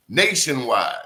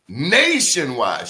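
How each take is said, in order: First: Said in the usual way. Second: Nationwide stretched slow and pressed louder; drawn-out emphasis. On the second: Real, not acted. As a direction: lean hard on nationwide, slowly. Repeats it for emphasis.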